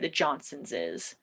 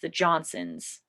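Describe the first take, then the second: First: The possessive adds an extra syllable with S. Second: The possessive ends in a single S sound. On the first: The speaker calls it wrong. "You don't have to say" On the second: The speaker calls it right. "I just add an S to the end"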